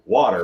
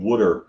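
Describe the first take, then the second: First: It is said in a standard accent. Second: It is said in a Baltimore accent.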